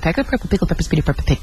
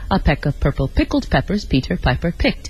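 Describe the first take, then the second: First: It is said extremely fast. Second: It is said at a moderate pace.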